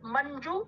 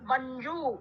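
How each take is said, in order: First: The final u vowel is short. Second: The final u vowel is long. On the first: The speaker calls it right. "शब्द मंजू है" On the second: The speaker calls it wrong. "मंजू का मंजू ना करें"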